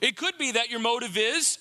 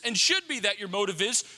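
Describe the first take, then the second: First: "could" stressed, line left open. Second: "should" stressed as the stronger word. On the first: Preacher offering the congregation a better motive, stress on "could". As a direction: lean on "could" as a possibility. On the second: Preacher urging the congregation toward better motives, stress on "should". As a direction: press on "should" to upgrade the possibility. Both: Shown as a demonstration.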